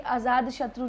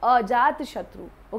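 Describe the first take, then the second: First: The first word is said with z and d. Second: The first word is said with j and t. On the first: The speaker calls it wrong. "आज़ाद शत्रु नहीं होता" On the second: The speaker calls it right. "That is अजात"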